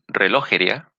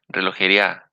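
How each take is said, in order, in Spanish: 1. El acento está en la segunda sílaba, lo. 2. El acento está en la última sílaba, a. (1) "en la O" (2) "o en la A"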